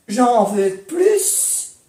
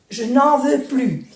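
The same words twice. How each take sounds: First: "J'en veux plus" said very slowly, "plus" as "plys"; sounded S in plus. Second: "je n'en veux plus" said with "plus" as "ply"; silent S in plus. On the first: Teacher contrasting "j'en veux plus" with the S. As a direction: draw it out and sound the final S of "plus". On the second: Teacher contrasting the negative "plus" without the S. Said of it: "negación no S". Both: Shown as a demonstration.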